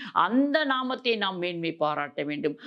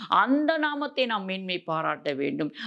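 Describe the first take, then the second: Both takes have the same delivery.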